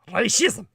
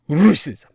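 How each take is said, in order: First: The first vowel sounds like 'ah' in 'rash'. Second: The first vowel sounds like 'uh' in 'rush'. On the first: "It's actually pronounced in the Ukrainian more like racism" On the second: "a kind of R U sound in the English"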